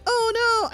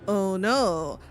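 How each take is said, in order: First: It sounds sincerely frightened. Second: It sounds teasing and mischievous. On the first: The speaker is truly afraid. "the words being like so like" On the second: The fear is fake, luring someone into a trap. "the voice and the tone that they decide to go with it"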